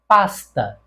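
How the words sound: The s before t sounds like s.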